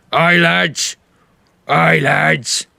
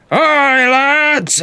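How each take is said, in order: First: A hint of a big orc first mate; terse orc, voiced lightly; huge orc. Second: Much higher, louder bellow across the deck. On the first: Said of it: "barrel-chested, huge orc". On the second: Acted. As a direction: bellow the order to the whole crew. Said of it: "he kinda bellows super loud".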